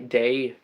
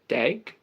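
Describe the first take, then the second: First: The word ends with a y sound. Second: The word ends with a hard g sound.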